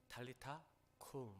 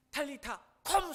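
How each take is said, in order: First: Soft, slow 탈리타 쿰; quiet, as if whispering. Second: High, loud, drawn-out shout; shouted command. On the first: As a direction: say it gently, like a hushed word to someone close. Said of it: "예수님이 속삭이듯이". (속삭이듯 조용히) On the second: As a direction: shout 탈리타 쿰 slowly and forcefully. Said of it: "소리 지르는 게 아니라". (길고 크게 외치듯) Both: Shown as a demonstration.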